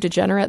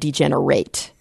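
First: The last syllable has a weak, reduced vowel. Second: The last syllable has a full 'ate' vowel. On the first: It names a person. "degenerate as a noun" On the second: It names an action. "it can be used as a verb, but then we pronounce it differently"

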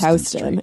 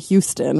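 First: It is said the New York City way. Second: It is said the Texas way. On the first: This names the New York City street. "But in New York City, it's Houston" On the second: This names the Texas city and person. "In Texas, it's Sam Houston"

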